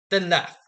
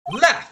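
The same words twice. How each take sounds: First: Said in the usual way. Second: "Laugh!" barked high and loud; angry high shout of "Laugh!"; bitter shout. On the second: Acted. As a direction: demand it with bitter anger. Bitter challenge.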